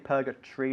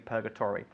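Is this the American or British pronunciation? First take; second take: British; American. First: The ending is squeezed to sound like 'tree'. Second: The ending keeps a full 'tor' syllable. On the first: "In England, we say purgatory" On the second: "I guess in the States, they would say purgatory"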